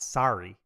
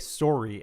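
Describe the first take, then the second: First: The first vowel is an open 'ar' sound. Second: The first vowel is a rounded 'or' sound. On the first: The speaker calls it wrong. "sar sorry is actually like more uh grating on the on the ears" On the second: The speaker calls it right. "always said to say sorry"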